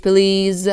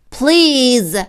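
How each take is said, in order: First: Said in the usual way. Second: Higher, drawn-out pleading please; wailing. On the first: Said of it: "plain take of please". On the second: Acted. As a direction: wail it like a hurting animal. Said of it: "the fox wailed".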